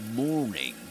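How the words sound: The r sound in morning is pronounced. "other accents like um, American English"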